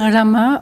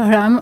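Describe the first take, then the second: First: The name ends with a final a vowel. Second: The name ends without a final vowel. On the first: "on dit Rama" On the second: "on ne prononce pas forcément le A à la fin"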